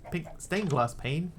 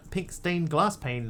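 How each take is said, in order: First: Pink STAINED glass pane, slow, weight on stained rising; odd stress on stained. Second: Pink stained GLASS pane, weight on glass with a falling tune; stress on glass. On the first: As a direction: slowly push the word stained up. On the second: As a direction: lean on glass, let it fall. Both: Shown as a demonstration. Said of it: "putting the emphasis on the syllable there".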